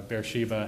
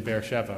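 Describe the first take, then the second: First: Beersheba said "bear-SHEE-vah"; alternative pronunciation. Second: Beersheba said "bear-SHEH-vah"; Hebrew-style pronunciation. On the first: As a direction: say Beersheba with a long "ee" in the middle. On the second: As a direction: say Beersheba with a v and an "eh" in the middle. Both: Shown as a demonstration. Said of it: "however you want to pronounce it".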